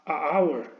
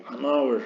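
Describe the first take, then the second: First: A hour said as two clashing vowels, no n; wrong pronunciation. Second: An hour with the n linked onto hour; the right way, n gliding into hour; correct pronunciation. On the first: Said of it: "es muy difícil de pronunciar". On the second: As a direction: say an hour smoothly, n joined to the vowel. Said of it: "necesitamos esa N de apoyo". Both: Shown as a demonstration.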